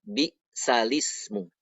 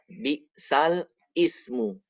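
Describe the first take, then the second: First: The lam runs straight into ismu without break. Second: Ismu starts separately, with its own initial vowel. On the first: The vowel moves onto the lam when read aloud. "Jadi membacanya bisalismu" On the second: This is the original form as written. "Aslinya bisal ismu"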